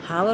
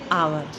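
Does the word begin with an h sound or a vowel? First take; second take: h sound; vowel. First: The word starts with an h sound. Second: The word starts with a vowel sound. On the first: The speaker calls it wrong. "हावर होता है H O यू आर" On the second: The speaker calls it right. "लेकिन पढ़ते क्या है? आवर"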